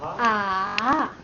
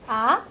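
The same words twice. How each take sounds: First: The pitch dips down and then rises. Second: The pitch rises from mid to high. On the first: Realizing why something happened. "you have to go down and go up" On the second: Surprise. "marked with a short rising bar on top"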